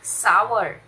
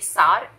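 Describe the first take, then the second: First: The vowel glides like 'ow' before the r. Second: The vowel is a plain 'ah' sound. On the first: The speaker calls it right. "इसकी सही pronunciation है सावर" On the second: The speaker calls it wrong. "ये सार नहीं है"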